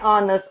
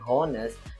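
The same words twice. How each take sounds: First: The first H sound is not pronounced. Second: The first H sound is clearly pronounced. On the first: The speaker calls it right. "huruf H ini kita baca dengan silent atau tidak terdengar" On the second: The speaker calls it wrong. "kita tidak membacanya dengan honest"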